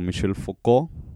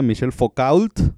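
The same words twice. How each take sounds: First: The name is said with a French pronunciation. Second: The name is said with a non-French pronunciation. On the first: "los puristas de la psicología lo pronuncian como" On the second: "mientras no sea Michel Foucault, todo está bien"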